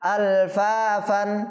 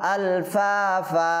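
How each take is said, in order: First: The word ends with an n sound. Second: The word ends with a drawn-out a vowel. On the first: The reading continues past this word. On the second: The reader stops on this word.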